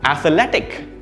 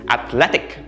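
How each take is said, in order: First: The word is said with four syllables. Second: The word is said with three syllables. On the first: The speaker calls it wrong. "There are four syllables when we pronounce it" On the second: The speaker calls it right. "the stress is on the second syllable... only three syllables"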